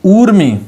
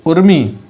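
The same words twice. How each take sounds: First: ऊर्मी with a long stretched ऊ, higher and louder; ऊर्मी, long u held; long uu, correct. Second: उर्मी with a short clipped उ; उर्मी, short u sound; short u, wrong. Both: Shown as a demonstration. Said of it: "उर्मी नहीं ऊर्मी".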